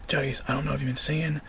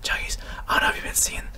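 First: Said in the usual way. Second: Breathy ASMR whisper, quick. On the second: Shown as a demonstration. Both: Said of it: "it's like A S M R".

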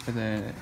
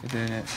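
Both takes have the same delivery.

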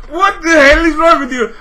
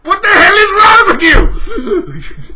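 First: Louder, higher, breaking into laughter; laughing-crying yell. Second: Slow, louder, much higher bellow; furious shout. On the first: Repeating the outburst at Microsoft, laughing yell. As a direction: yell it again, cracking up. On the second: Raging at Microsoft at the rant's peak, furious shout. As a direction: roar it at them. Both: Real, not acted.

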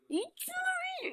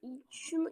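First: "İç şunu" much higher, slow and put-on; slow eerie high "İç şunu"; creepy voice. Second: Said in the usual way. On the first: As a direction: drawl "İç şunu" like a spooky stranger. Sinister voice forcing a drink.

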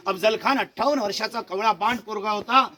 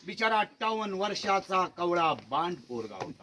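First: Said in the usual way. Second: Mock pity. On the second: Ironic jab at 58-year-old Khan.

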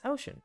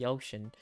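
First: Said in the usual way. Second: "ocean" with an odd accented glide; "ocean" mispronounced, roughly like "yo-shun". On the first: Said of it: "Uh, it's ocean". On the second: Shown as a demonstration. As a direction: put a stray accent on "ocean". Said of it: "I had an accent with the, uh".

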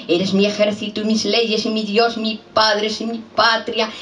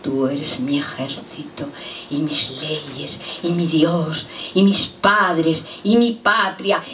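First: Quick, higher-pitched run through the refrain; hurried, incantatory poem refrain; rapid recited litany. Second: Poem refrain, slow and measured; unhurried litany that rises on the last item; slow recited litany. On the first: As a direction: rattle off the list on a raised pitch. Same refrain repeated in a rush. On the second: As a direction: recite it item by item, drawing each out. Refrain built slowly item by item. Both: Acted.

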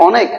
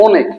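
First: অনেক with a natural open "aw" at the start; open initial vowel. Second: অনেক changed to start with a closed "o"; closed initial vowel. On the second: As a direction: say the অ of অনেক like ও, a rounded "oh". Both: Shown as a demonstration. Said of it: "এটা উচ্চারণ করলে কি হয়".

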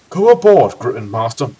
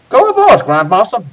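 First: Remor's voice. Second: Very high, loud put-on voice; wrong character voice. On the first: Acted. Mentor urging the Grandmaster aboard, corrected character voice. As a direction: urge it as the old mentor, less squeaky. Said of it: "urged Remor after replacing his vocal cords". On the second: Reader urging the Grandmaster aboard in the wrong voice, high and loud. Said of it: "Oh, sorry, wrong voice".

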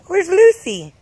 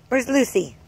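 First: Excited coaxing call. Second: Said in the usual way. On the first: Real, not acted. Parent calling to toddler, loud and eager. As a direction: pitch it up and call out to her.

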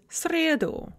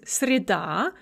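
First: "среду" as SRE-du, weight on "сре"; stress on first syllable. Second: "среда" as sre-DA, weight on the final "а"; stress on second syllable. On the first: Teacher showing the accusative stress shift, "среду" stressed on "сре". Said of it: "with the stress on the first". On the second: Teacher showing the nominative stress, "среда" stressed on "да". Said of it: "with the stress on the second syllable". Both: Shown as a demonstration.

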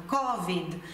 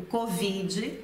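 First: "covid" said CO-vid, ending on the d; first-syllable stress. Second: "covid" said co-VEE-dji, stressed late; Brazilian stress. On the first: Teacher shows how people say it in Italy, first-syllable stress. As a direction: hit CO in "covid". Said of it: "a primeira sílaba seja a sílaba forte". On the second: Teacher gives the Brazilian example, second-syllable stress. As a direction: lean on VI in "covid". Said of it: "o italiano tende a falar dando ênfase". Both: Shown as a demonstration.

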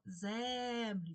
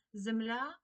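First: Землі with a long stressed Е in the first syllable; stressed, stretched Е. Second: Земля with stressed final Я, rising; stress on last syllable. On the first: Teacher giving the check word, землі stressed on long Е. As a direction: draw out the Е in землі so it is clearly heard. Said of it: "Чуємо Е". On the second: Teacher posing a spelling example, Земля stressed on final Я. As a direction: lean on the Я ending of Земля, louder. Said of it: "наголос падає на останній склад". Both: Shown as a demonstration.

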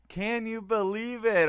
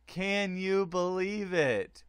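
First: Higher and louder, punching it; loud amazed repeat; excited disbelief. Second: Slow, stressing you, falling; stunned disbelief. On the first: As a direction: shout it out in amazement. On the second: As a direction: let the disbelief sink in slowly. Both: Real, not acted. Repeating stunned result.

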